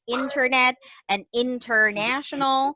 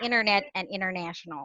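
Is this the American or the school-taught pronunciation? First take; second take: school-taught; American. First: It uses the school-taught pronunciation. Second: It uses the American pronunciation. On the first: "taught by your teachers at school to pronounce these words as" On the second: "it sounds funny when you say ... But this is the American way"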